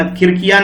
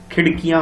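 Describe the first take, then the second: First: खिड़कियां said with a plain tapped r, as खिरकियां; teacher demonstrates the wrong खिड़कियां with an r; wrong r sound. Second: खिड़कियां said with the retroflex flap ड़, tongue curled back; correct ड़ sound. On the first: Teacher showing pupils the mistake, खिड़कियां with tapped r. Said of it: "र मत लगा देना". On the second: Teacher showing pupils the right way, खिड़कियां with ड़. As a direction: say खिड़कियां properly with ड़, not r. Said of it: "र नहीं होता बेटा इसके अंदर". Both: Shown as a demonstration.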